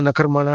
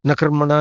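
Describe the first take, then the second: No difference in how they are said.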